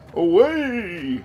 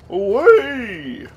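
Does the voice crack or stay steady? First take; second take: steady; cracks. First: The voice stays steady through the word. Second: The voice cracks partway through the word. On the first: The speaker calls it right. "There we go. That's what I meant to do" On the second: The speaker calls it wrong. "why did my voice crack there?"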